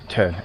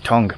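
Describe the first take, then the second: First: The name is said like the word 'tern'. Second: The name is said like the word 'tongue'. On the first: This is how the locals say it. The speaker calls it right. "they pronounce it Tern" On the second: This is how a newcomer reads the spelling. The speaker calls it wrong. "you thought it's Tongue"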